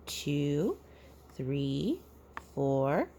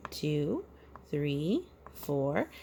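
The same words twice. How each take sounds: The two takes are said the same way.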